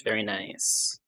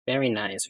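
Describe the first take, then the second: First: Soft breathy whisper. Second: Said in the usual way. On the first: Shown as a demonstration. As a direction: whisper it back. Repeats it whispered.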